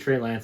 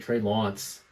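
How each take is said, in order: First: It is said in a plain American accent. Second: It is said in a British accent.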